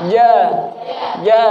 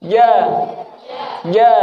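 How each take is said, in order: The two takes are said the same way.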